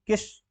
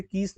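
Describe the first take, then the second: First: किस as a quick "kis"; short i. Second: कीस as "kees", vowel held; wrong long ee. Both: Shown as a demonstration. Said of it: "कीस नहीं".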